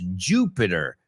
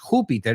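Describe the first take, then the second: First: It is pronounced the English way. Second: It is pronounced the Spanish way. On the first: The speaker calls it right. "es Jupiter" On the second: The speaker calls it wrong. "lo mismo que no es Júpiter"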